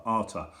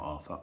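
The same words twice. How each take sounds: First: "Arthur" said with a hard t, Ar-tur; corrected name. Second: "Arthur" with a soft th sound; wrong name. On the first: Reader correcting herself on the pupil's name Arthur. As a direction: say "Arthur" with a t, not th. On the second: Reader showing the wrong way she first said the name Arthur. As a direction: say "Arthur" with th, as in thin. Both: Shown as a demonstration. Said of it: "sorry, not Arthur".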